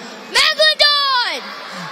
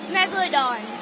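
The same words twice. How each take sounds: First: It is said very loudly. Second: It is said quietly.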